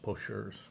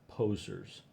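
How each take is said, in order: First: It ends with a French-style 'zur' sound. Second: It ends with a plain English 'zers' sound. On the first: The speaker calls it wrong. "I thought it was poseurs" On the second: The speaker calls it right. "it's pronounced correctly. Posers"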